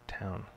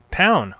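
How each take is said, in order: First: Quiet. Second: High loud exclamation, falling. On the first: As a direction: drop Town. to a murmur. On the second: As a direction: call out Town! brightly. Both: Shown as a demonstration.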